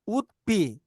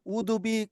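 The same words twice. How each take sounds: First: The d of 'would' is held, unreleased. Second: The d of 'would' is fully released. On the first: "원어민들이 가르쳐 주는 발음은" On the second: "지금도 이제 그렇게 읽으셔도 돼요"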